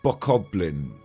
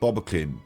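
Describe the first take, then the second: First: It is said with a middle 'koh' and 'blin' ending. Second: It is said with a middle 'bah' and 'kin' ending. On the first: This is how the speaker says it now. The speaker calls it right. "Now I say Bokoblin" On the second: This is how the speaker used to say it. The speaker calls it wrong. "I thought I called them Bobakins"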